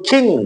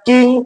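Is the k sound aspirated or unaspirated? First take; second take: aspirated; unaspirated. First: The k has a strong puff of air. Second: The k has no puff of air. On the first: "এখন করব" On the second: "আগে উচ্চারণ করেছি আমরা"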